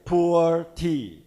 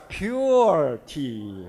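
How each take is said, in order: First: "poor" drawn out slowly with no y-glide; the pronunciation to avoid. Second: "pure" stretched slowly with a clear y-glide, pyoo-er; recommended pronunciation. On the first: Presenter warning the company off this name, "poor" said without a y sound. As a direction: say "poor" slowly, like the word for penniless. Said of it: "It will sound like a poor tea". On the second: Presenter advising the company on the name, "pure" with a long y-glide. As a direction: draw out "pure" as in purity. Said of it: "So say it like a". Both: Shown as a demonstration.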